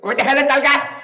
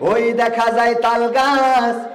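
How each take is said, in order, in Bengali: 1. এটি একজন নকল করা মন্ত্রীর কণ্ঠে আবৃত্তি করা হচ্ছে। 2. এটি একজন ধর্মপ্রচারকের ঢঙে আবৃত্তি করা হচ্ছে। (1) "দায়িত্বরত মন্ত্রী ছিলেন, উনার কণ্ঠটা ঠিক এরকম ছিল" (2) "বক্তা যারা ওয়াজ করে, তারা কিভাবে বলবে"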